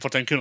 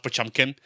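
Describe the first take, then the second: First: The middle consonant is a plain 't'. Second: The middle consonant is a 'ch' sound. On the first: This is the speakers' own habitual pronunciation. "we definitely call Potemkin Potemkin on purpose" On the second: This is the official pronunciation. "which is the actual pronunciation of the name"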